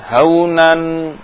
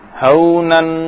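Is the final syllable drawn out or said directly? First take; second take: drawn out; direct. First: The final syllable is drawn out and separated. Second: The final syllable is said short and directly. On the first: The speaker calls it wrong. "Jangan seperti itu" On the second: The speaker calls it right. "Tapi langsung"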